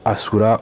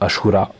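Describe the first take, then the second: First: The middle consonant is a plain 's' sound. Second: The middle consonant is an 'sh' sound. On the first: The speaker calls it wrong. "ils appellent ça le Asura" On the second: The speaker calls it right. "je pense que ça se prononce plutôt Ashura"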